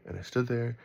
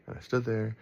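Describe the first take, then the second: No difference in how they are said.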